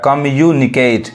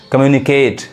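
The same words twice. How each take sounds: First: communicate slowly in parts; communicate drawn out for learners; syllable by syllable. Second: Said in the usual way. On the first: Shown as a demonstration. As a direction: break communicate into kam-yu-ni-ket. Teacher breaks word into syllables.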